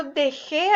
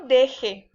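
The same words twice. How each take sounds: First: Dejé stressed de-JÉ; de-JÉ, past-tense stress; stress on last syllable. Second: Deje stressed DE-je; DE-je, weight on the first syllable. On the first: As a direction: land on the final é of dejé. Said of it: "Es en pasado". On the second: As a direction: say deje with an unstressed final e. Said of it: "No lleva acento". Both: Shown as a demonstration.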